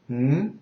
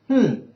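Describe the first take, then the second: First: The hum follows the second tone. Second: The hum follows the fourth tone. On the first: "the second is" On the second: "the fourth is"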